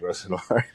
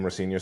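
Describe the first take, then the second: First: The name ends like the word noir. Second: The name ends like the word senior. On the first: This is a joking nickname version. The speaker calls it wrong. "joke that his name is" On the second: This is the name's actual pronunciation. The speaker calls it right. "or Liam Rosenior, sorry"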